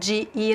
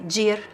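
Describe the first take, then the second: First: The two words are said as separate syllables. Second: The two words merge into one syllable. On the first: "Instead of de ir" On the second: "I say dir, I connect"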